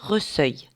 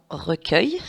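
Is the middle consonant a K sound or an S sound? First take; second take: S; K. First: The middle consonant is an S sound. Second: The middle consonant is a K sound. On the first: The speaker calls it wrong. "si je n'avais pas ce U, ça ferait reseuil" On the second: The speaker calls it right. "le U est là uniquement pour faire le son K"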